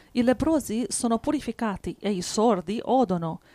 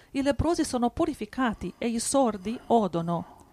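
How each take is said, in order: No difference in how they are said.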